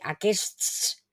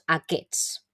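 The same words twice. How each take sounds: First: The s sound in the middle is pronounced. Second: The s sound in the middle is dropped. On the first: "Es un poco complicado" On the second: "esta S de aquí mmm, realmente no la pronunciamos"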